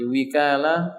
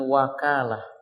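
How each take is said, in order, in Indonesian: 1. Huruf vokal pertama adalah bunyi 'i'. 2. Huruf vokal pertama adalah bunyi 'a'. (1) "Kadang-kadang dia dibaca dengan kasrah" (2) "Wawunya dibaca fathah"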